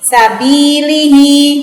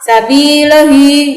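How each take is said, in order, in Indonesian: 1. Vokal setelah l terdengar seperti i. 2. Vokal setelah l terdengar seperti a. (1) "bacanya meringis" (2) "itu juga salah"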